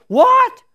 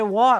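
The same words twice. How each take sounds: First: A sudden very high, loud what; excited what. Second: Said in the usual way. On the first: Retold or imitated. Wife hearing her mother is saved, thrilled. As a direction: squeal of delighted disbelief. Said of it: "she was all excited". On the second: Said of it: "She said".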